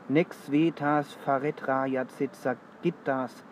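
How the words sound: Spoken with a German accent and German vowel lengths. It is how a German speaker would read it. "Im Deutschen ... Da wäre es ungefähr so. ... etwas bäuerischer"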